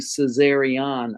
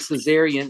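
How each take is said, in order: First: The name ends with an 'ee-on' sound. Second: The name ends with an 'ee-an' sound. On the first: The speaker calls it right. "It's actually Caesarion, I O N at the end" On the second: The speaker calls it wrong. "I heard people say Caesarian"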